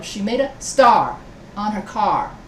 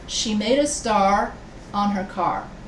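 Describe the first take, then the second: First: Star and car are stressed, creating a beat. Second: The words are read evenly, without strong beats. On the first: "I emphasize the words star and car" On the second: "if I just say"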